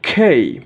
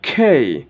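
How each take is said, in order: First: The k has a strong puff of air. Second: The same.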